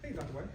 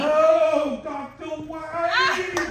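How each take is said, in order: First: It is said in a plain, ordinary way. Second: It is said in an exaggerated, dramatic way.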